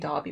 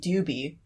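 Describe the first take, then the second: First: The first syllable has an 'ah' vowel. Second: The first syllable has an 'oo' vowel. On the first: This is the name's actual pronunciation. The speaker calls it right. "which is how his name is actually pronounced" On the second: This is a reader's invented pronunciation. The speaker calls it wrong. "my friend would say Doobie, even though like technically it doesn't make sense spelling wise"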